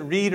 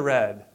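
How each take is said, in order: First: "read" rhymed with seed; "read" said REED; long-vowel REED. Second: "read" rhymed with bed; "read" said RED; short-vowel RED. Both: Shown as a demonstration. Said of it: "How do you pronounce that?".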